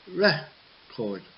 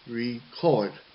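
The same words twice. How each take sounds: First: The stress is on the first syllable. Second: The stress is on the last syllable. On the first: It is the noun. "For the noun, it is record" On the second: It is the verb. "Record is a verb, so it's record"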